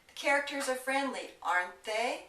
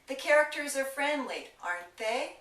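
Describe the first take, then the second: First: The pitch rises on the final tag. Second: The pitch rises on the final tag.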